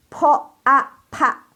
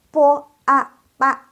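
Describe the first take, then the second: First: Po a pa with a puff after p; slow, high po a pa, breath bursting out; aspirated p. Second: Po a pa without breath after p; unaspirated p. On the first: Teacher leading class, po a pa aspirated. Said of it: "udaranya keluar semua". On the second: Teacher leading class, po a pa unaspirated. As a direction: chant po a pa high, airless p. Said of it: "Tadi kan nggak keluar udara". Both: Shown as a demonstration.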